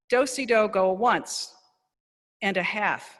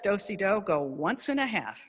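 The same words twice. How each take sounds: First: There is a pause before the last word. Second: It flows in an even rhythm without pausing. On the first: The speaker calls it wrong. "there was that pause before the half" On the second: The speaker calls it right. "so that you have this nice rhythm"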